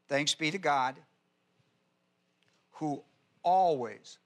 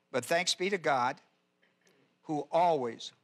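First: "always" drawn out slowly and leaned on; stress on always. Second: Said in the usual way. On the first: Shown as a demonstration. Preacher to his flock, slow weight on "always". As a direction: linger on "always" so it lands. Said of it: "Watch this now". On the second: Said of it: "I want to emphasize that word".

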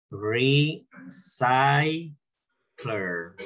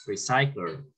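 First: "recycler" very slowly, ri... SAI... cler; syllable-by-syllable demo. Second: Said in the usual way. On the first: Shown as a demonstration. Teacher models a word for students, "recycler" drawn out slowly. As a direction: stretch "recycler" out in separated syllables.

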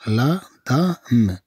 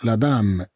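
First: "لا دام" stretched very slowly; slow teaching pronunciation, broken apart; slow syllables. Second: Said in the usual way. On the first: Shown as a demonstration. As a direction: draw out each sound of "لا دام". Slow take for learners.

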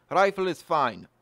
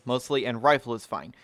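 First: "Rifle is fine" in a hammed-up Russian accent, dropping the article. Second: Said in the usual way. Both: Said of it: "That's my Russian accent".

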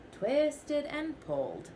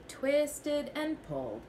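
The two takes are said the same way.

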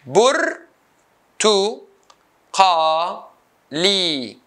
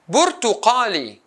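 First: "burtuqali" as bur, tu, qa, li with pauses; syllable by syllable. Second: Said in the usual way. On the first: Shown as a demonstration. Teacher cutting the word into four, syllable by syllable. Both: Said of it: "four syllables".

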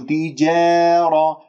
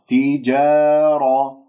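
First: تجارة said "ti-jeh-ra"; faulty drawn-out fronted alif in تجارة; tilted alif, wrong. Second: تجارة with long open "jaa"; measured, untilted vowel in تجارة; correct open alif. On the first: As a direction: bend the long vowel of تجارة toward e. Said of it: "لا تمل صوت الألف". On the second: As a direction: recite تجارة slowly, pure alif and heavy ra. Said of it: "هكذا نقراها". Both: Shown as a demonstration.

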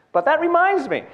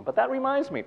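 First: High, loud punchline delivery. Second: The same line, still high but softer; repeated quieter. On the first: Comedian showing the line she wants on her tombstone, high and loud. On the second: Comedian repeating her tombstone line, high and softer. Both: Shown as a demonstration. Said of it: "I think that should be on my tombstone".

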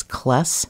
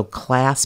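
First: "kless" with an eh vowel for class; Cincinnati-style "kless", vowel raised to eh; Cincinnati short A. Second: Said in the usual way. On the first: Shown as a demonstration. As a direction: slowly say "kless" to rhyme with bless. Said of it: "Cincinnati accent is short A's". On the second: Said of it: "so class becomes kless".

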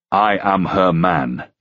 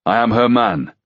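First: I am her man said slowly and firmly; slow repetition. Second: Said in the usual way. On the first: Acted. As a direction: repeat it deliberately, slow. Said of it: "Ruck repeated".

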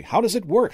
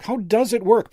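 First: High, loud question rising at the end; urgent question. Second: "does" punched high and loud; stress on DOES. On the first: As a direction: ask it urgently, pitched right up. Rattled magician asks twice. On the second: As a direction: insist on the answer, hitting "does" hard. Repeats question, stressing does. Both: A narrator's reading.

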